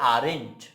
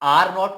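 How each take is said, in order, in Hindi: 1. यह एक संकुचित शब्द के रूप में बोला जाता है। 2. यह दो पूरे शब्दों के रूप में बोला जाता है। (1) "हम बोलते हैं आरेंट" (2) "आर नॉट को"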